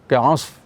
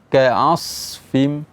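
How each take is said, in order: First: The s sound merges into the f sound. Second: The s sound is clearly hissed before f. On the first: The speaker calls it wrong. "Jadi terdengar seperti ka'af" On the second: The speaker calls it right. "Tapi yang benar adalah"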